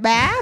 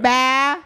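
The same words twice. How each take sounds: First: The pitch rises across the syllable. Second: The pitch stays level across the syllable. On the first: "but you can say it up" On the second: "And then neutral, you can say it bah"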